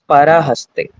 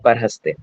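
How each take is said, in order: First: The short vowel after 'par' is pronounced. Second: The short vowel after 'par' is dropped. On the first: The speaker calls it right. "It is parahaste" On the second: The speaker calls it wrong. "not parhaste"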